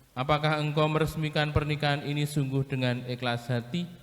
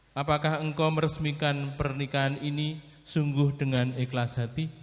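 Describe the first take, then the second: The two takes are said the same way.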